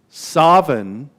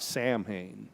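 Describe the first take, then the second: First: It is pronounced the way it is in Scotland. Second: It is pronounced letter by letter, as spelled. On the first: "Samhain in Scotland" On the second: "It's not pronounced like it looks, not Samhain"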